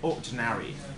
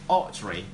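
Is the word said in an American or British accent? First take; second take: American; British. First: It is said in an American accent. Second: It is said in a British accent. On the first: "if you choose to speak American English, you can say like ordinary" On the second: "two ways of pronouncing Audrey in British English"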